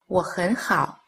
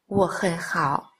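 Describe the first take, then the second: First: Only the middle syllable has a rising tone. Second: All three syllables have a low dipping tone. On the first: "thanh ở giữa đọc thành thanh hai" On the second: "wo hen hao đọc thành"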